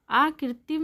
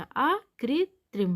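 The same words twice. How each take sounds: First: आकृतिम ending "-tim" with no r; wrong missing r. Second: आकृत्रिम slow, with "-trim" at the end; corrected tr cluster. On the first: Teacher showing the error, आकृतिम without second r. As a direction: say आकृतिम as "aakritim". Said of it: "आकृतिम नहीं होता". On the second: Teacher correcting students, आकृत्रिम slow with tr. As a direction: sound the second r in आकृत्रिम, slowly. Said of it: "आकृत्रिम होता है". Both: Shown as a demonstration.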